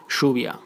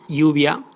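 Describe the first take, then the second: First: Lluvia with the ll as sh, shuvia; Rioplatense lluvia. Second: Lluvia with the ll as a y sound, yuvia; standard lluvia. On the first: Teacher modelling the Argentine sh in lluvia. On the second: Teacher showing standard lluvia with y. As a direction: say the ll in lluvia like an English y. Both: Shown as a demonstration. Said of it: "like sh".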